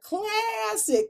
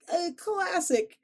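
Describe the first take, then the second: First: Very high, very slow classic; high drawn out. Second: Very high, slow Chicago classic; Chicago accent. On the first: Shown as a demonstration. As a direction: stretch classic high and long. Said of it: "but classic". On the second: Real, not acted. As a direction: draw out classic Chicago style. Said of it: "my Chicago accent came out".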